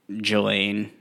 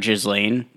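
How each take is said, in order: First: The S sound is left out of the name. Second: The S sound is pronounced in the name. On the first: The speaker calls it right. "So I think the S is just silent" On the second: The speaker calls it wrong. "I just said it how it was spelled"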